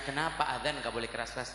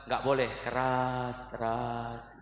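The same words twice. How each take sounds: First: Said in the usual way. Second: "keras-keras" stretched very slowly on a level low note; low, level, long-held vowels on "keras-keras"; drawn-out punchline. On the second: Retold or imitated. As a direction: draw out each half of "keras-keras" like a slow call. Punchline mimicking drawn-out call to prayer.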